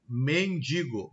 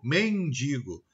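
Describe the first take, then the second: First: Said in the usual way. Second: "mendigo" slowly as "mendingo"; slow "mendigo" with an extra n before g; nasalized vowel. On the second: Shown as a demonstration. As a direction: nasalize the i of "mendigo": "men-DIN-go". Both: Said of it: "Eu tenho a nasalização de vogais".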